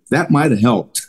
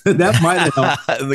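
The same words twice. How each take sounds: First: Said in the usual way. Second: Slow amused repeat through a laugh. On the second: Shown as a demonstration. Retelling the coach story, amused laughing repeat. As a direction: laugh it out slowly, tickled by the irony.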